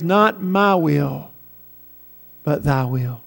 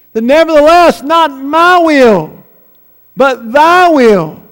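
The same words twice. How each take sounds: First: Low, slow and soft; hushed surrender. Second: Raised, drawn-out preacher's proclamation; emphatic surrender. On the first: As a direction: let it sink into a quiet, solemn submission. Christ's surrender as heaven rests. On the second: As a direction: ring it out slowly and forcefully. Climactic repeat of Christ's surrender. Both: Acted.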